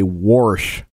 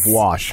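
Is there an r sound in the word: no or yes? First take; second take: yes; no. First: The word has an added r sound. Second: The word has no r sound. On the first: "people say warsh" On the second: "instead of wash"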